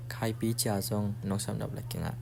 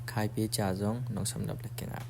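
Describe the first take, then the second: No difference in how they are said.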